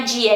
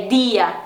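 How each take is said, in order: First: "dia" as djia, Portuguese style; Brazilian dj. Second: "dia" with a soft dental d; Spanish "dia". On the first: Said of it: "a questão do dia". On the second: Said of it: "também é bem suave". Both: Shown as a demonstration.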